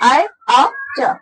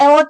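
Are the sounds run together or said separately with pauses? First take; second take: separately; together. First: The sounds are said separately with breaks. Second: The sounds are joined into one word. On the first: "ए ओ च ऐसे भी याद कर सकते हैं" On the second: "एक साथ बोल रहे हैं तो एवोच बोल देते हैं"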